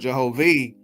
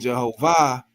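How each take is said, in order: First: The name ends with an 'ih' sound. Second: The name ends with an 'ah' sound. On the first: It names the creator of heaven. "the I H instead of the A H" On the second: It names the creator of the earth. "Jehovah with the A H at the end"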